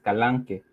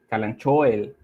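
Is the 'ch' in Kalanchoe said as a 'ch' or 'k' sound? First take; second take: k; ch. First: The 'ch' is said like a 'k'. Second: The 'ch' is said like English 'ch'. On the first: The speaker calls it right. "en realidad la pronunciación correcta es" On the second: The speaker calls it wrong. "se pronuncia como Calanchoel, lo dice la gente"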